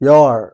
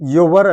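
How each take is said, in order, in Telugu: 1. ఈ పదాన్ని ఒక అక్షరంగా పలుకుతారు, 'yor'. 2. ఈ పదాన్ని రెండు అక్షరాలుగా పలుకుతారు, 'yu-var'. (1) "దాన్ని ఇలా చదివితే బాగుంటుంది" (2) "మనం యువర్ అని చదువుతాం జనరల్గా"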